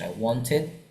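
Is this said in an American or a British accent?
British. It is said in a British accent. "Kalau beda dengan British"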